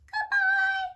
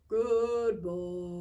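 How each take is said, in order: First: It is said in a high voice. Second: It is said in a low voice.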